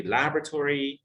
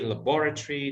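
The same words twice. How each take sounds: First: Laboratory stressed on lab, LAB-ra-tory with a full tor; American laboratory, first syllable stressed; American pronunciation. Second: Laboratory stressed on bor, la-BOR-a-try; British laboratory with the middle stressed; British pronunciation. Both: Shown as a demonstration. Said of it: "they may say laboratory".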